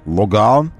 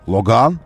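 First: It is said in a French manner. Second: It is said in a French manner.

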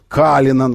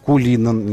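First: The first vowel is an a sound. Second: The first vowel is an u sound. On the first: The speaker calls it right. "вот нужно так, на американский манер" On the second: The speaker calls it wrong. "а не «Кулинан» никакой там"

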